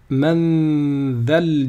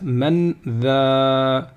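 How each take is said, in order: First: The vowel is short, linked into the next word. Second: The vowel of 'dha' is drawn out long. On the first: The reader continues into the next word. "je vais faire la liaison et je vais supprimer la prolongation" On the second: The reader stops after this word. "Normalement, ça devrait être man dha si je m'arrête"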